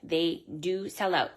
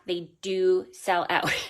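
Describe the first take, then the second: First: It is said at a normal, softer volume. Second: It is said at a louder volume.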